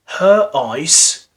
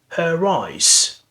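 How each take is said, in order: First: The words are joined without any r sound. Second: An r sound links the two words.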